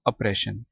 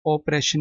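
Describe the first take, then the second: First: ऑपरेशन said with a short neutral "uh" first vowel, as oppression; correct pronunciation. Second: ऑपरेशन said with a rounded "o" first vowel, like the word operation; wrong pronunciation shown. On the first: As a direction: give the right reading of ऑपरेशन, "uh-preshun". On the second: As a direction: deliberately mispronounce ऑपरेशन as "operation". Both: Shown as a demonstration. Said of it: "ऑपरेशन नहीं पढ़ना इसको".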